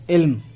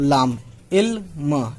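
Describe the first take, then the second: First: Said in the usual way. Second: Slow teacher's sounding out of इल्म; drawn out sounding. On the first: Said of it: "teacher says word normally". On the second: Shown as a demonstration. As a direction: stretch इल्म slowly, syllable by syllable. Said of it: "teacher sounds out word".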